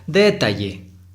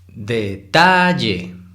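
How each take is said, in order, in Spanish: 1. La sílaba tónica es la primera. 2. La sílaba tónica es la del medio. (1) "Si fuera la sílaba tónica en D, se pronunciaría" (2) "hay que exagerarlo un poco para identificarlo"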